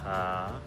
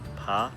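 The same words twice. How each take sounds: First: It is said with the third tone. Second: The pitch rises through the syllable. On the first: "Then you have the third tone again" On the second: "a rising sound for the second tone"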